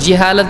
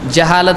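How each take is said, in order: First: The first syllable has an 'i' vowel. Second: The first syllable has an 'a' vowel. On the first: The speaker calls it wrong. "जिहालत गलत है" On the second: The speaker calls it right. "जहालत सही है"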